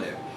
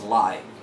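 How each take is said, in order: First: The vowel is short, rhyming with give. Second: The vowel is long, rhyming with five. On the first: It names the action of residing somewhere. "Live is a verb that is an action word" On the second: It means happening in real time. "you use the word live in an adjective form"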